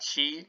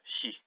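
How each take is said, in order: First: The vowel is long and full. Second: The vowel is short and clipped. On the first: The speaker calls it wrong. "not she" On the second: The speaker calls it right. "she with a shortened I"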